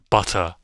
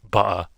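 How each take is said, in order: First: The t sound in the middle is clearly pronounced. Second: The t sound in the middle is dropped. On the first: The speaker sounds posh. "pronounce or enunciate all their letters in a sentence like butter" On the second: The speaker does not sound posh. "and not butter"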